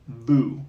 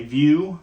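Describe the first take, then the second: First: It is said with a French vowel sound. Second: It is said like the English word view. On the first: The speaker calls it right. "I think it's really Vieux" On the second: The speaker calls it wrong. "I used to say view, like like the view out the window"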